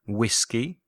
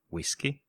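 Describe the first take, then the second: First: Whisky said the English way, clear and full; English pronunciation. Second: Whisky said the Spanish way, much softer; Spanish pronunciation. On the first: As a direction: model whisky as an English word for learners. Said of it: "Licores en inglés son spirits". (whisky pronunciado a la inglesa) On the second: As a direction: give whisky as a quiet Spanish gloss. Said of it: "o sea". (whisky pronunciado en español, en voz baja) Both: Shown as a demonstration.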